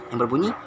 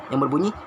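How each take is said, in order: No difference in how they are said.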